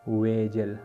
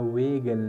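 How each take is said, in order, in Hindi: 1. बीच का व्यंजन कोमल j ध्वनि है। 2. बीच का व्यंजन कठोर g ध्वनि है। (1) "सही प्रोनाउंसिएशन दे वेजल" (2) "वेगल ने दे दे सही प्रोनाउंसिएशन"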